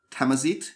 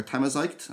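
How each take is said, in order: First: Tamazigh ending in a long "zeet"; tentative pronunciation. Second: Tamazigh ending like "zyte", rhyming with kite; alternative pronunciation. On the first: Host trying a name from notes, tentative "zeet" pronunciation. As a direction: say Tamazigh as "tam-a-zeet", questioning rise. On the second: Host offering a second guess, unsure "zyte" pronunciation. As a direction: say Tamazigh as "tam-a-zyte", questioning rise. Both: Shown as a demonstration. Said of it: "not sure how to pronounce it".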